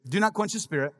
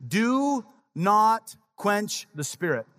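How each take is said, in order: First: Said in the usual way. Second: Each word drawn out slowly; slow solemn reading. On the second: Shown as a demonstration. Pastor slowly reading scripture to the congregation, solemn and drawn out. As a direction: read it slow and weighty, like scripture. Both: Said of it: "Notice what he says".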